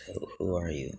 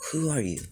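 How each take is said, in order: First: Softer, lower take on the question; deep voice. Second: Much higher, startled-sounding question; high-pitched question. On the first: Five-year-old wakes and asks the heroes, deep voice. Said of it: "to have such a deep voice". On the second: Midoriya waking to the heroes, high-pitched question. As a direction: pitch it high with a falling end. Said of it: "he doesn't say it like that". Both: Acted.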